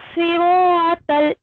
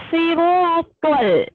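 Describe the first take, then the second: Both takes have the same delivery.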